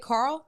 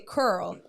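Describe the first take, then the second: First: The name is said in a standard accent. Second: The name is said in a New Orleans accent. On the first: "they don't say Carl" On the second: "they say Curl"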